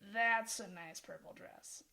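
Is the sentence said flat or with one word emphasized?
emphasized. It is said with one word clearly emphasized. "Where the emphasis is on really changes things"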